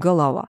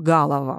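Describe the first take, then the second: First: The first vowel is a short, reduced vowel. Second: The first vowel is a full, clear vowel. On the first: The speaker calls it right. "мы говорим «голова»" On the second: The speaker calls it wrong. "Мы не говорим «голова»"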